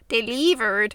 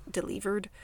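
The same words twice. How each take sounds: First: Louder, odd Canadian-sounding slip; Canadian accent. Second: Said in the usual way. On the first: Real, not acted. Host trips over the word delivered, Canadian accent. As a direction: say "Delivered" with an accidental Canadian twang. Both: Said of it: "She's trying to do the Canadian accent".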